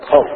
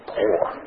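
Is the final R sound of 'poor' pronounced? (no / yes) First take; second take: no; yes. First: The word ends without any R sound. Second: The word ends with a clear R sound. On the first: "In the South, we say poor. We don't even put the O-R" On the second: "Nobody wants to be poor"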